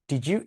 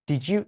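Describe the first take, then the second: No difference in how they are said.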